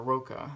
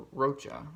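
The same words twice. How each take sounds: First: Rocha said with a "k" sound, ROH-kuh; hard k sound. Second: Rocha said with a "ch" sound, ROH-chuh; ch as in church. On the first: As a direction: pronounce the ch in Rocha like a k. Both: Shown as a demonstration. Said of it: "however you wanna pronounce that".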